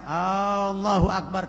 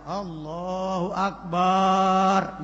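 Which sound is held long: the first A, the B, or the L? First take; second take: first A; the B. First: The first vowel of Allah is lengthened. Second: The vowel after B in Akbar is lengthened. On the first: "lafaz Allah alifnya tidak boleh dibaca panjang" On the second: "ba-nya akbar tidak boleh dibaca panjang"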